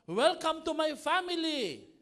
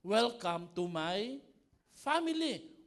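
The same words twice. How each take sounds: First: Higher, louder, slow reading of the welcome; slow quoted welcome. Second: Drawn-out, loud mock welcome. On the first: Retold or imitated. Pastor reading a quote to the congregation, slow and raised. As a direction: announce the welcome like a sign. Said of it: "Sabi dito". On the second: Pastor mock-welcoming the congregation to a noisy family, drawn out. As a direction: stretch out the welcome, louder.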